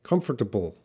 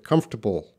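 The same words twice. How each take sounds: First: British Comfortable with a crisp t in the middle, KUM-fuh-tuh-bul; British pronunciation. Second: Comfortable with the t reduced, KUMF-ter-bul; American pronunciation. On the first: Teacher shows students the British way to say Comfortable. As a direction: sound out Comfortable the British way, t clearly hit. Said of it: "has a stronger T sound in the middle". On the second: Teacher contrasts his own Comfortable with the British one. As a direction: glide over the t in Comfortable, American style. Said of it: "But I pronounce it comfortable". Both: Shown as a demonstration.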